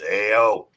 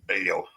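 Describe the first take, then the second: First: It is said in a Rocky impression voice. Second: It is said in his own normal voice.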